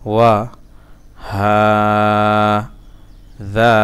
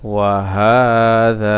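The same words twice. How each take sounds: First: Separated syllables with long pauses. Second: Joined recitation. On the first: Teacher breaking a word down for learners, syllable by syllable. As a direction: sound out one syllable at a time. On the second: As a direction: join it up with long held vowels. Teacher joins the syllables up. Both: Shown as a demonstration.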